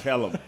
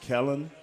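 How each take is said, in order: First: The name ends with an M sound. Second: The name ends with an N sound. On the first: The speaker calls it right. "you're getting better every week" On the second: The speaker calls it wrong. "You said it with an, with an N on the end instead of an M"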